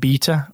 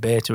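First: It is said with a British pronunciation. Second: It is said with an American pronunciation.

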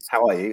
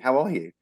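First: It is said as a casual, polite formality. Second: It is said with sincere, genuine concern.

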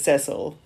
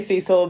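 First: It is pronounced the non-American way. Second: It is pronounced the American way. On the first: "the rest of the world says Cecil" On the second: "Americans say Cecil"

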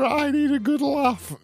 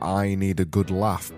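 First: It is read in a put-on silly voice. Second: It is read in the speaker's normal voice.

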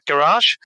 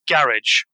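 First: It is said with an American pronunciation. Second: It is said with a British pronunciation.

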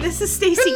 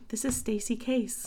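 First: It is said in her normal speaking voice. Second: It is said in a put-on NPR radio voice.

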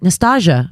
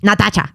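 First: The name is said with an English accent. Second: The name is said with a Spanish accent. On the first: "Instead of saying like" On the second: "can you say it in the Spanish accent?"

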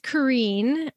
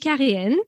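First: The name is said in an American way. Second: The name is said in a French way. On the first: This is the form adopted while living abroad. "Or it's Kareen, because I chose that one finally when I went and lived in the States" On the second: This is the original form of the name. "It's actually Karine"

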